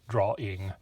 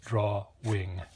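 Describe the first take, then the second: First: No w sound starts the second syllable. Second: A w sound starts the second syllable. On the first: This is how most people say it. "drawing is how most of us do it. There's sort of a silent W in there" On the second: This is how one particular person says it. "he puts the W on the second syllable"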